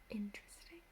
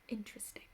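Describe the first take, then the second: Both takes have the same delivery.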